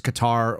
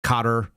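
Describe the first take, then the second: First: Qatar said kuh-TAR; second-syllable stress. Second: Qatar said CUT-er; first-syllable stress. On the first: Host trying one way of saying the country's name, Qatar as kuh-TAR. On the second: Host offering another way of saying the country's name, Qatar as CUT-er. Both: Shown as a demonstration. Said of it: "you guys have said it different ways".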